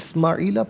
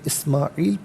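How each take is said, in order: First: The word ends with a final 'a' vowel. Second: The word ends on the consonant 'l'. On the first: The reading goes on without stopping. "इसे इस्माईला पढ़ेंगे" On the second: The reader stops at this word. "वफ़ की सूरत में इस्माईल पढ़ेंगे"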